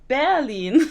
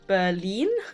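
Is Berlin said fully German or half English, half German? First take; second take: fully German; half English. First: It sounds fully German from start to end. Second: It starts English-sounding and ends German-sounding. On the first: The speaker calls it right. "No, it's Berlin" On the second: The speaker calls it wrong. "the start of Berlin was English, and the second half was German"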